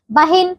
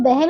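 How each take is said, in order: First: बहन said ba-hin; wrong i vowel. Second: बहन said be-hen; e vowel. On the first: Teacher showing wrong बहन as bahin. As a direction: put an i in the end of बहन. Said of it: "गलत बच्चों". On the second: Teacher correcting pupils, बहन as behen. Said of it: "बहन होता है". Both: Shown as a demonstration.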